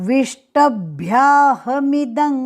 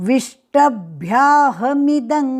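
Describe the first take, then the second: No difference in how they are said.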